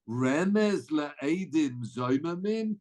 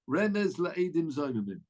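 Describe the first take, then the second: First: It is said as a stunned, incredulous question. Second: It is read as a plain, flat statement. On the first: The need for any hint is being challenged. The speaker calls it right. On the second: The hint to the rule is being stated. The speaker calls it wrong.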